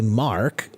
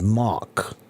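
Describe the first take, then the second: First: The vowel ends with an R sound. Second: The vowel ends as a plain ah sound. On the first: The speaker calls it right. "I didn't say Mark" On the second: The speaker calls it wrong. "I said Mock, just like you. Your R sound is more like an ah sound"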